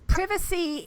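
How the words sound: It is said with a British English pronunciation. "It's privacy in British English"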